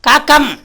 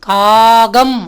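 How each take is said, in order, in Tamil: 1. நடுவில் உள்ள மெய் கடினமான இரட்டித்த k. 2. நடுவில் உள்ள மெய் மென்மையான g ஒலி. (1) "காக்கம் சொல்கிறோமா?" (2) "காகம் அப்படி தானே சொல்கிறோம்"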